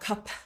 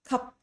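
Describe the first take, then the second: First: Extra air or a vowel follows the final consonant. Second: The final consonant stops cleanly with nothing added. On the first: The speaker calls it wrong. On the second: The speaker calls it right. "We do not add extra air, we do not add extra vowels"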